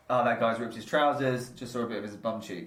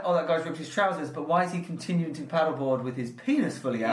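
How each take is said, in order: First: Lightly voiced casual passer-by remark; offhand retold comment, barely acted; unbothered onlooker. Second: Lightly voiced baffled passer-by; retold bemused remark, mildly acted; puzzled onlooker. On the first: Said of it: "they're like". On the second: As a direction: imitate someone questioning odd behaviour. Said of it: "That's weird".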